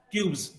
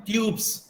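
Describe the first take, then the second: First: ट्यूब्स ending in a voiced z. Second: ट्यूब्स ending in a voiceless s; wrong s ending. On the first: Teacher correcting the plural, ट्यूब्स with final z. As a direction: say ट्यूब्स with a buzzing z at the end. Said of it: "यहाँ पे ज की तरह". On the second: Teacher showing what to avoid, ट्यूब्स with final s. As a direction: say ट्यूब्स with a hissed s, not z. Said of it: "not स". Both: Shown as a demonstration.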